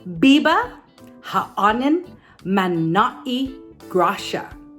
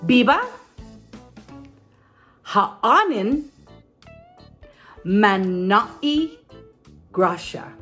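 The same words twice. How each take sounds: First: It is said at normal speed. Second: It is said a little more slowly.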